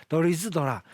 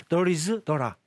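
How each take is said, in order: The two takes are said the same way.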